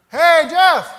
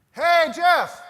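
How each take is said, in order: First: Very loud, high shout of Jeff's name; coach calling out. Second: Loud, high hearty shout of Jeff's name; coach calling out. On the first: Coach shouts at patient from under the bed. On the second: Coach leans over the bed and calls his player loudly. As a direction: coach booming a wake-up greeting. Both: Retold or imitated.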